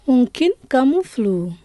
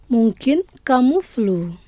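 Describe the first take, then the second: First: Said in the usual way. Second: Lent, chaque syllabe bien détachée; lent et articulé. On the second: Shown as a demonstration. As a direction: dicter lentement pour la répétition. (lentement, comme pour des élèves) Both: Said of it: "je vais prononcer lentement".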